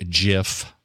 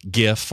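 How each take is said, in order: First: Gif with a soft G, like "jif"; gif opened on a soft "juh". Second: Gif with a hard G, as in "gift"; gif opened on a hard G. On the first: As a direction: say gif starting with a J sound. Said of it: "or a soft G". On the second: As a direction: say gif starting with a hard "guh" sound. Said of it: "Depends if it's a hard G". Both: Shown as a demonstration.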